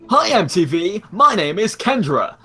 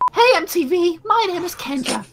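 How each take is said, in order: First: It is said in a man's voice. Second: It is said in a put-on woman's voice.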